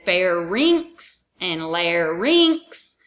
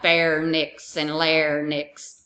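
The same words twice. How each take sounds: First: The words end in 'rinks', r before n. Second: The words end in 'nix', n before r. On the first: The speaker calls it right. "I said pharynx and larynx" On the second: The speaker calls it wrong. "You don't have pharynx and larynx"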